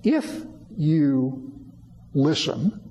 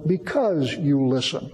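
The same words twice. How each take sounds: First: Slow IF, set apart before "you listen"; "if" drawn out as a condition; stress on IF. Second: "because" stressed, the rest running on lower; BECAUSE marked, "you listen" following without a break. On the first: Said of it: "Some of them will say". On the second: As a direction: lean on "because" as the alternative wording. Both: Shown as a demonstration.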